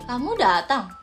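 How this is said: It is said in an angry tone. "kalau nada marah kayak kamu datang"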